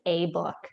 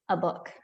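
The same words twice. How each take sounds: First: The article has a full, clear vowel. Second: The article is reduced to a weak vowel. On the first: This is the form taught to learners. "if you're learning English, you're probably going to learn that it's a book" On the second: This is how people really speak. "The way we actually talk, it would be a book"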